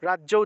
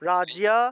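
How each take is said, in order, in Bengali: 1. শব্দটি দ্বিগুণ 'jo' ধ্বনি দিয়ে শেষ হয়। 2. শব্দটি 'jiya' ধ্বনি দিয়ে শেষ হয়। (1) "বাংলায় আমরা এটা উচ্চারণ করি রাজ্য" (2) "কিন্তু উচ্চারণটা হবে রাজিয়া"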